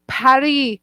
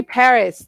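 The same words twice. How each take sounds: First: "Paris" the French way, as "pah-REE"; French pronunciation. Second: Said in the usual way. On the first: Shown as a demonstration. Describing Montreal to a co-host, "Paris" as French "pah-REE". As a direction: drop the final s in "Paris", French style. Says it French, then English.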